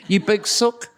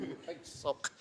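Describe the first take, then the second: First: Higher, voiced mock jibe; teasing insult. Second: Hushed jibe under the breath; muttered insult. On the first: Co-teacher teasing her colleague for backing out, aloud. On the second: Retold or imitated. Co-teacher calling her colleague a sook, muttered. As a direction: drop suddenly to a whispery mutter.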